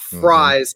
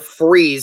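First: The name rhymes with size. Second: The name rhymes with cheese. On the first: The speaker calls it wrong. "It's not Fries" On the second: The speaker calls it right. "It's actually Will Freeze"

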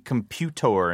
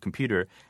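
First: The word is pronounced in an odd, comic way. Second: The word is pronounced in the ordinary way. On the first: "I mimic Ned Beatty in the Superman movies" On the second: "instead of computer"

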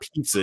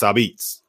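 First: It is said as standard 'pizza'. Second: It is said as 'abeets'. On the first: The speaker calls it wrong. "you're not pronouncing it right. It's not pizza in New Haven" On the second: The speaker calls it right. "It's Abitz"

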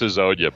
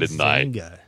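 First: The name is said as Hazonia. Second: The name is said as Hizanga. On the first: The speaker calls it right. "I know it's Hazonia" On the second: The speaker calls it wrong. "but Hizanga. I don't know. That was bad"

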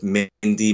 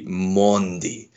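First: The name is said with an English-style vowel. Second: The name is said with a French-style vowel. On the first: It fits the flow of English speech. "I'm gonna stick with Mendy" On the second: It sounds like trying too hard to be French. "technically it should be Mondi, but that's too French"

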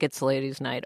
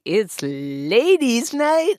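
First: It is mumbled quietly and indistinctly. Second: It is said out loud, with energy.

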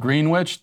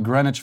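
First: It is said as spelled, sounding the w. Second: It is said the local way, w silent. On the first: The speaker calls it right. "it is spelled Greenwich. That's how it's spelled, and that's how I pronounce it" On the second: The speaker calls it wrong. "Everyone in New York, we call it"

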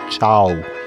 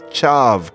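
First: The word ends with a w sound. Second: The word ends with a v sound. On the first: The speaker calls it right. "that V is pronounced as a W. I should have said chow" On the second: The speaker calls it wrong. "I said that the word for key was chav"

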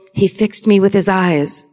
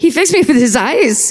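First: It is said in the speaker's normal accent. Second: It is said with a put-on German accent. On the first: The speaker calls it wrong. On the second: The speaker calls it right.

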